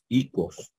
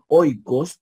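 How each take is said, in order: First: The word begins with a plain ee vowel. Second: The word begins with an oi diphthong. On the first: "diríamos" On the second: "en vez de decir"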